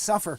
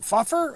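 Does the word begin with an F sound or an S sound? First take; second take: S sound; F sound. First: The word begins with an S sound. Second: The word begins with an F sound. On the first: The old letter is read correctly as an S. The speaker calls it right. "oh yeah, that's right, it's an S, suffer" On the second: The old letter is misread as an F. The speaker calls it wrong. "suffer is F U F F E R. You're like, what, fuffer?"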